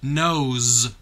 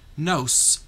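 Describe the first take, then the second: First: The word ends with a buzzing Z sound. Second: The word ends with a hissing S sound. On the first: The speaker calls it right. "it's nose" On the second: The speaker calls it wrong. "if it were making the sound that S makes in sun"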